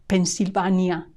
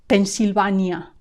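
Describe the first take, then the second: The two takes are said the same way.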